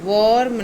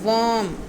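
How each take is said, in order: First: The r is strong, with an o-like vowel. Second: The r is soft, with an uh-like vowel. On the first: The speaker calls it wrong. "वर्म नहीं" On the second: The speaker calls it right. "आर को softly बोलना है और ओ की sound अ की है"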